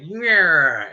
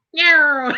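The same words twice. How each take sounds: First: Said in the usual way. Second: Very high squeaky echo of Yeah; cat mimicking the owner's Yeah. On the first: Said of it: "and I'll be like". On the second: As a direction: answer back in a tiny cat voice. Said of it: "and then you hear".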